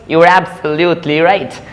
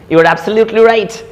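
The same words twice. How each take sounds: First: "absolutely" spread out syllable by syllable; slow the phrase, spacing out "absolutely"; slow careful repeat. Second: Said in the usual way. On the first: Shown as a demonstration. Teacher repeating an example for learners, slow and careful.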